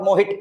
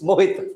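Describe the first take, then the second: First: "Mohit" ending in a hard retroflex t; wrong Mohit. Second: Touch the teeth for the t of "Mohit"; correct Mohit. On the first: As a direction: curl the tongue back on the t of "Mohit". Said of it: "It's not Mohit". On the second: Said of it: "it's Mohit". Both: Shown as a demonstration.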